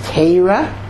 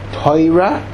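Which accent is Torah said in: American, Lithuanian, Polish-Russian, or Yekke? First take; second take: Lithuanian; Polish-Russian. First: Torah is said in a Lithuanian Hebrew accent. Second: Torah is said in a Polish-Russian Hebrew accent. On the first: "which is the Litvisha pronunciation" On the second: "which is the Polish and Russian pronunciation"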